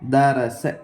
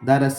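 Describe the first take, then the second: First: The vowels are short and evenly timed. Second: The vowels are cut shorter than normal. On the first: The speaker calls it right. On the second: The speaker calls it wrong.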